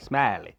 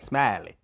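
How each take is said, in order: First: The name is drawn out with a country twang. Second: The name is drawn out with a country twang.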